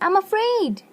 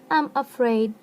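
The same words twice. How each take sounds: First: It is said with real fear in the voice. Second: It is said flatly, like a robot. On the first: The speaker calls it right. "When you're afraid, you're telling" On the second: The speaker calls it wrong. "It's like robotic sound"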